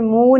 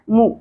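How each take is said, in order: First: The vowel after m is drawn out long. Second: The vowel after m is kept short. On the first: The speaker calls it wrong. "منہ نہیں پڑھنا" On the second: The speaker calls it right. "میم کی پیش کو زیادہ نہیں کھینچیں گے"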